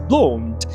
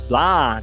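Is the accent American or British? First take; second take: British; American. First: It is said with a British accent. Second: It is said with an American accent. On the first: "No britânico é blonde" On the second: "Em americano é blonde"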